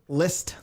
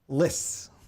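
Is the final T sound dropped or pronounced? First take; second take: pronounced; dropped. First: The final T sound is pronounced. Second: The final T sound is dropped.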